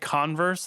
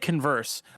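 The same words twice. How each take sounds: First: It is said like the shoe brand name. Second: It is said like the word conversation. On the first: The name refers to the shoe brand. "people could say Converse, like the popular shoe brand" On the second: The name refers to a conversation. "I say Converse, like it's like a conversation"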